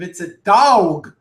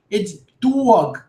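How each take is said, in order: First: It is said with a Texas accent. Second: It is said with a Brooklyn accent.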